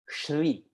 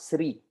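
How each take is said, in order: First: The word begins with an sh sound. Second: The word begins with a plain s sound. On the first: The speaker calls it right. "Be very clear with that" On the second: The speaker calls it wrong. "and not Sri"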